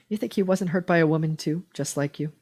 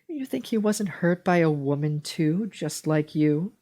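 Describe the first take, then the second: First: It is read in a plain, neutral tone. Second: It is read in a patronizing, talking-down tone.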